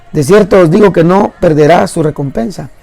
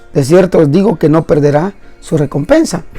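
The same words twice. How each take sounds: The two takes are said the same way.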